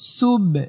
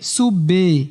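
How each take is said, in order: First: The b ends with a light echoing bounce. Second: The b is followed by a full added vowel. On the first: The speaker calls it right. "কলকলা মানে হচ্ছে রিটার্ন একটা আওয়াজ বা প্রতিধ্বনি। ... সুব এমন।" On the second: The speaker calls it wrong. "কলকলা করতে গিয়ে সুবে এরকম করে ফেলায়, এটা আবার ভুল।"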